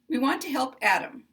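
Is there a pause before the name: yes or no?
no. It is said with no pause before Adam.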